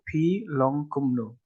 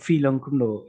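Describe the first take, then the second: First: The first word begins with a p sound. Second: The first word begins with an f sound. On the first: This is the standard form. "You put p in front" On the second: This is the trendy form used by young people. "they use a fa"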